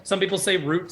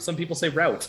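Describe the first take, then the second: First: "root" with a long oo; "root" with the oo vowel; pronunciation of root. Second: "route" with an ow vowel; "route" pronounced like rout; pronunciation of route. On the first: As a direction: say "root" to rhyme with boot. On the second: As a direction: say "route" to rhyme with shout. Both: Shown as a demonstration. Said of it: "It's like how some people".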